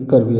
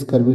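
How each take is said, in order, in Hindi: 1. शब्द k ध्वनि से शुरू होता है। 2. शब्द s ध्वनि से शुरू होता है। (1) "करवी ऐसे करेंगे" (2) "स्कर्वी नहीं"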